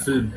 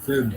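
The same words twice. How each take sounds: First: ফিল্ম said as flim, the l slipped before the i; wrong pronunciation. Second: ফিল্ম said as film, i before the l; correct pronunciation. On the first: Teacher imitating how many people mispronounce the word film. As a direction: mimic the common mistake ফিল্ম as flim. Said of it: "অনেকে আছে বলে ফিল্ম". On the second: Teacher giving the correct way to say film after the wrong one. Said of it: "ভুল কথা". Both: Shown as a demonstration.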